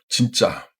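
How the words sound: It sounds forceful and full of conviction. That is so true, total agreement. "avec force et conviction"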